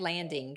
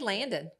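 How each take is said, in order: First: The word ends with the final g sound. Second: The word ends without the final g sound. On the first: This is how outsiders say it. "We don't say landing" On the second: This is how the locals say it. "It was Landon without the G. ... We say Landon"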